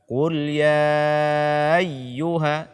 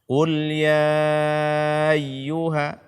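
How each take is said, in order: Both takes have the same delivery.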